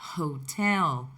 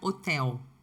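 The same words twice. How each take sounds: First: The initial h is breathy and aspirated. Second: The initial h is silent. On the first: This is the English pronunciation. "Perceberam como eu aspirei o som do H?" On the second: This is the Portuguese pronunciation. "Nós não pronunciamos o H"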